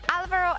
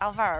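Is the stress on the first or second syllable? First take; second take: first; second. First: The stress is on the first syllable. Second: The stress is on the second syllable. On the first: The speaker calls it right. "normally an accent on the A" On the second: The speaker calls it wrong. "not Alvaro"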